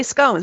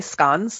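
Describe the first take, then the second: First: SCONES with a long O; American scones. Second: SCONES with a short O; British-style scones. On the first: Shown as a demonstration. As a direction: say "scones" to rhyme with "bones". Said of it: "We don't say scones". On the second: Retold or imitated. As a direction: say "scones" to rhyme with "cons". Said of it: "The Brits say scones".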